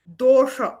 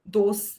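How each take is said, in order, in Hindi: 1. यह शब्द sh ध्वनि से समाप्त होता है। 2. यह शब्द s ध्वनि से समाप्त होता है।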